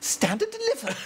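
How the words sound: It is said in a high, posh voice.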